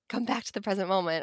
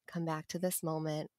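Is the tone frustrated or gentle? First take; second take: frustrated; gentle. First: It is said in a frustrated, scolding tone. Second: It is said in a gentle, compassionate tone.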